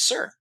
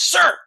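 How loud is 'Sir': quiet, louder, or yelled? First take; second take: quiet; yelled. First: It is said quietly. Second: It is yelled.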